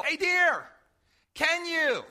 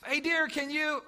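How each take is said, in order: First: Mild mock yell across the house, a little higher; calling out to wife. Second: Said in the usual way. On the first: Husband calling to his wife across the house, mild mock yell. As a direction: call out to her from another room, half-joking. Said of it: "And I'll yell". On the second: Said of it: "those experiences when you talk to yourself".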